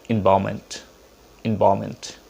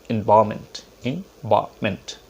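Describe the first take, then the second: The two takes are said the same way.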